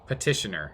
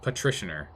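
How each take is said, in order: First: The word is said without an extra r sound. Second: The word is said with an extra r sound. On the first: The speaker calls it right. "petitioner, not patricianer" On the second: The speaker calls it wrong. "I'm putting an extra R in there for some reason"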